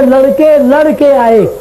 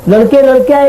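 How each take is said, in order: First: A break follows the first word, splitting the second. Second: The words run together without a break. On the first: The boys came after fighting. "इसका अर्थबोध दूसरा हुआ। लड़के लड़ करके आ रहे" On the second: Many boys came. "एक अर्थबोध हो रहा है कि लड़के लड़के आ रहे हैं।"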